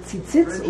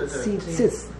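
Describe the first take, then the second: First: Tzitzit with a short, clipped first "i"; short vowel reading. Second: Tzitzit with a drawn-out "tzee" first; long chirik reading. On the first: Teacher posing two readings, short-vowel tzitzit first. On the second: Teacher posing the alternative reading, long first vowel in tzitzit. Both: Shown as a demonstration. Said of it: "How do you pronounce it?".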